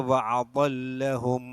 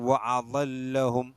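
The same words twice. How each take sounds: Both takes have the same delivery.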